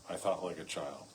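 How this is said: The word I carries the main stress. The writer is simply recalling his own childhood. The speaker calls it right. "to him, where he's saying, look, I was a child"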